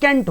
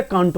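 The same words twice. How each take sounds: First: कैंट with "ae" vowel, like "kaent"; correct pronunciation. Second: कांट as "kaant", long aa; low, soft कांट with open vowel; common mispronunciation. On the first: Teacher giving the correct form, correctly pronounced. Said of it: "that is". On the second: Teacher repeating the common mistake, mispronounced. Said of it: "जबकि ये कांट नहीं". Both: Shown as a demonstration.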